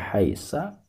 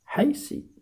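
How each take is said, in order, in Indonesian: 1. Kata itu diakhiri dengan vokal a. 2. Kata itu diakhiri dengan vokal i. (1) "tidak boleh dibaca haisa" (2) "tidak boleh dibaca haisi"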